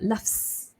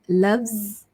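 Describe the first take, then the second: First: The word ends in voiceless f and s sounds. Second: The word ends in a voiced z sound. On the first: The speaker calls it wrong. "not loves, right? If you say loves, F, S, F and S, it sounds like you're saying laughing" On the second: The speaker calls it right. "it becomes loves"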